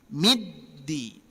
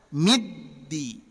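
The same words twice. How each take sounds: Both takes have the same delivery.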